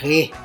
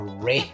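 First: The syllable begins with an H-like sound. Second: The syllable begins with an English R sound. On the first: This is how Portuguese speakers say the prefix. "We say Re with this age sound" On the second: This is how English speakers say the prefix. "in English instead of a Re"

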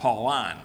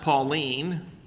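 First: It is pronounced unlike the girl's name. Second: It is pronounced like the girl's name. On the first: The term sounds masculine. The speaker calls it right. "So we're going to call it Pauline" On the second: The term sounds feminine. The speaker calls it wrong. "That's not Pauline. So like a girl's name"

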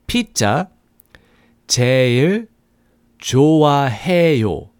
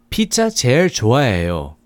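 First: It is said at a slower pace. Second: It is said at a faster pace.

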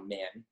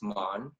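First: The name is said the later, Americanized way. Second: The name is said the older, pre-immigration way. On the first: This is how the family says it now in America. "ever since he moved to America, it's now" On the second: This is how the family said it before moving to America. "before my grandpa immigrated to America, it was pronounced"

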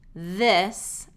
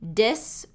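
First: The word begins with a voiced TH sound. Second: The word begins with a D sound. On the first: The speaker calls it right. "instead of the voiced TH sound" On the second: The speaker calls it wrong. "I hear D or Z sound"

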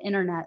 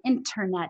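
First: The middle T is a soft tapped T. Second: The middle T is a sharp, crisp T. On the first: The speaker calls it wrong. "instead of internet, like I do" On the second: The speaker calls it right. "having nice crisp T's, saying internet"

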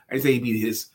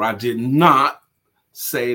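First: The stress is on "his". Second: The stress is on "not".

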